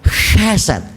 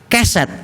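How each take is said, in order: First: The word starts with a rough breathy h sound. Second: The word starts with a plain k sound. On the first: It means covenant love. The speaker calls it right. "kalau mengucapkan harus ada hanya, chesed, itu kasih setia" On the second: It means a doormat saying welcome. The speaker calls it wrong. "Kalau saudara tidak pakai H, keset, itu artinya welcome"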